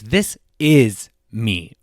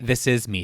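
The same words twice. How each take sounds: First: The stress falls strongly on "is". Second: The stress falls on "me", not "is".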